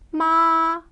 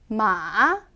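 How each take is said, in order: First: The pitch stays high and level. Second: The pitch dips low, then rises. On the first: It means mother. "평평하게 발음을 하셔야 돼요" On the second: It means horse. "내려왔다가 올라가는 음"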